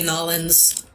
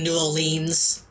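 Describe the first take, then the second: First: The name is squeezed into a short clipped form. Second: The name is said fully with every syllable. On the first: The speaker is trying to sound cool. "Some people think they're cool if they say Nolans" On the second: The speaker is making an extra effort. "put in the extra effort of saying New Orleans"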